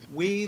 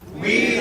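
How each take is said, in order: First: It is said at normal volume. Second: It is said loudly.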